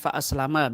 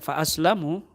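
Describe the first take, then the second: First: The final vowel of the word is 'a'. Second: The final vowel of the word is 'u'. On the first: "dibaca dengan fa aslama bil fathah mimnya" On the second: The speaker himself was kept safe. "Kalau bil dhamma mimnya"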